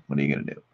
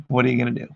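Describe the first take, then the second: First: Much lower and softer; low quiet aside. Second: Said in the usual way. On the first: Shown as a demonstration. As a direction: mutter it low under your breath. Says the line twice.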